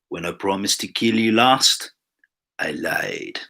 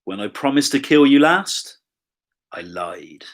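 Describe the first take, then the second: First: It is said in an imitated Austrian accent. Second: It is said in the speaker's ordinary accent. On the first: "That was terrible" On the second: "Should have tried to do it in um, the Austrian accent"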